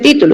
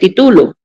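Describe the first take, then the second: First: The stress is on the first syllable. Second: The stress is on the second syllable. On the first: "no dice título" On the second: "dice título"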